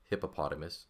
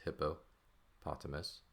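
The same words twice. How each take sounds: First: Said in the usual way. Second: "hippopotamus" slowly, split as hippo, potamus; word broken into parts. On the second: Shown as a demonstration. Teacher showing the parts of "hippopotamus", word broken in two. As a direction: say "hippopotamus" slower and softer, pausing after hippo.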